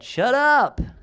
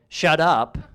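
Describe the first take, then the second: First: It sounds surprised and amazed, not like an order. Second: It sounds like a curt order to be quiet.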